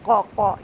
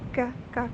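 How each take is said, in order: First: The k is deep, made far back in the throat. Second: The k is light and thin, with breath. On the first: The speaker calls it wrong. "ये आवाज़ ना आए" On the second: The speaker calls it right. "कश वाला काफ बारीक होता है"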